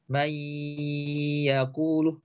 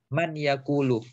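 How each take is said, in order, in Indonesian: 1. Bunyi n menyatu dengan bunyi y setelahnya. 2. Bunyi n diucapkan dengan jelas sebelum y. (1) "yang seharusnya dibaca" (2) "tapi dia baca menjadi"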